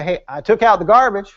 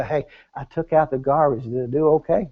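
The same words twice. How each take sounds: First: Said in the usual way. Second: Lower, softer, seeking approval; timid little boy. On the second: Acted. Husband to wife about the garbage, timid and approval-seeking. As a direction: ask like a boy afraid of trouble. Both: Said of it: "we might not even say it that way".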